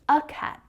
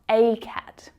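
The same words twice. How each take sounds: First: The article is a short, weak 'uh' sound. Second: The article is a full, long 'ay' sound. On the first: The speaker calls it right. "in naturally spoken English, we pronounce this as a or uh" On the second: The speaker calls it wrong. "not a"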